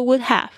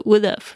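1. 这两个词要分开说，每个都说完整。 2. 这两个词要连成一个音来说。

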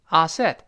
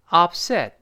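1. p 完全不发音。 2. p 是闭合的，但不爆破。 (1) "但注意不能读成upset upset" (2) "所以读成upset upset"

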